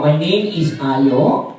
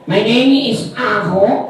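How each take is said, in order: First: Said in the usual way. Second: "Aho" with an h in place of the y; says Aho. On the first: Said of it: "Sabihin mo". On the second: Pretend. Puppet Ayo fumbles his own name as "Aho" for the kids. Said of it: "Anong Aho?".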